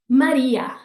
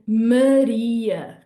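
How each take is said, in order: First: The A vowels are open, with a wide mouth. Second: The A vowels are closed, like in 'away'. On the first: It sounds Spanish. "In Spanish, we would say it like this" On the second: It sounds Portuguese. "In Portuguese, we're actually going to use closed A's"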